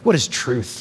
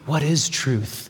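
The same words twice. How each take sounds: First: It sounds skeptical and dismissive. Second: It sounds genuinely curious and inquiring.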